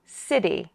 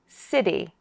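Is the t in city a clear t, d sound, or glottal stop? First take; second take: d sound; d sound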